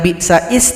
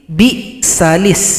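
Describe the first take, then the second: First: No l sound is heard before the i. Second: An l sound is heard before the i. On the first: The speaker calls it wrong. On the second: The speaker calls it right.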